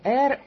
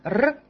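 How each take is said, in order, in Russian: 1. Это произносится как полное название буквы. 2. Это произносится как короткий чистый согласный. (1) "не Р" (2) "а коротко Р"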